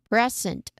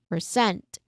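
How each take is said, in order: First: The stress is on the first syllable. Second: The stress is on the second syllable. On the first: "from the first syllable" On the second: "to the second syllable"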